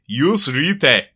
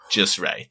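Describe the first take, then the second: First: It is said with a put-on German accent. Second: It is said in a plain, unaccented way.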